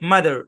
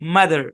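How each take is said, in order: First: The final r sound is clearly pronounced. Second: The final r sound is clearly pronounced.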